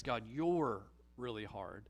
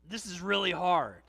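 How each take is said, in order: First: Low, sour complaint against God; accusing grumble. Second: Tired, aching plea, louder; a burdened prayer that says it's hard; weary groan to God. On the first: Grumbler accusing God in a sour mutter. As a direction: blame God under your breath. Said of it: "But a grumble says". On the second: Believer groaning honestly to God in a weary plea. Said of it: "A groan says to God". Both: Pretend.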